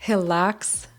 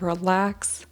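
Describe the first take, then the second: First: The first sound is a breathy h-like sound. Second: The first sound is an English r. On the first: The speaker calls it wrong. "Esse som de r, eu sei, é um pouco feio" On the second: The speaker calls it right. "instead of relax"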